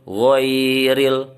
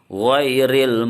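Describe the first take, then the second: First: The vowel is drawn out long. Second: The vowel is said short and quick. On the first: The speaker calls it wrong. "dia panjang ghairil ghairil, salah" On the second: The speaker calls it right. "yang betul adalah cepat saja digoyang"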